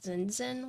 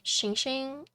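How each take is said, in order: First: The name starts without an 'sh' sound. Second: The name starts with an 'sh' sound. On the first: This is how most people say it. "most people say like" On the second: This is the name's own pronunciation. "it's S H I N G"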